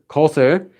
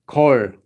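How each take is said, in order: First: It is said in full as two syllables. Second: It is contracted into a single syllable. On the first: "If you're using kot with ö, so 것을" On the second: "this just becomes 걸"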